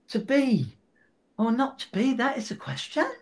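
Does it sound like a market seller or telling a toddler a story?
toddler story. It is told gently like a toddler's story.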